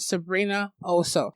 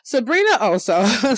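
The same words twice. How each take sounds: First: The name is said plainly, without extra force. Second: The name is said with more strength and force.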